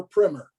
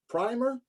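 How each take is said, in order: First: "primer" with a short i, like "PRIMM-er"; short-i pronunciation. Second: "primer" with a long i, like "PRY-mer"; long-i pronunciation. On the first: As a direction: say "primer" to rhyme with "swimmer". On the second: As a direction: say "primer" to rhyme with "timer". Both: Shown as a demonstration. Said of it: "Is that a British or American pronunciation?".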